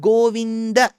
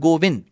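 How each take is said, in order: First: The name ends with a final vowel sound. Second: The name ends on a consonant, no final vowel. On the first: The speaker calls it right. "But when you bring it together" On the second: The speaker calls it wrong. "It's not Govind"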